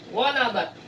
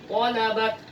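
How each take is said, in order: The two takes are said the same way.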